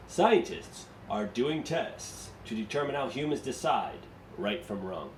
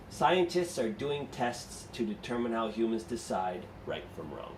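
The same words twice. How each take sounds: First: Steady read straight through; book-style reading. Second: Slower reading with short breaks between thought groups, as in Scientists are doing tests / to determine how humans decide / right from wrong; slight pauses. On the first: Teacher shows students how the book reads it. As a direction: run Scientists are doing tests through to wrong in one even stream without pauses. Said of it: "I would not do it like they do it in the book".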